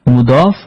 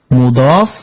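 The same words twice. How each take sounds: No difference in how they are said.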